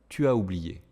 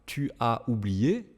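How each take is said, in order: First: The vowels flow together in one breath. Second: The vowels are separated, not in one breath. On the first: The speaker calls it right. "mais tu as où?" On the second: The speaker calls it wrong. "ne dites pas"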